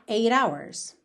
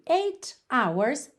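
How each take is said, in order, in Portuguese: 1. O t é um som batido rápido, parecido com um d. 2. O t é pronunciado como um t nítido.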